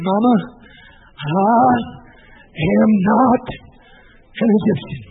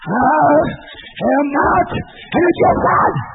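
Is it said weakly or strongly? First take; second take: weakly; strongly. First: It is said weakly, without force. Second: It is said strongly, with force.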